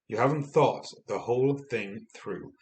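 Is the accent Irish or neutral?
neutral. It is said in a neutral, non-Irish accent.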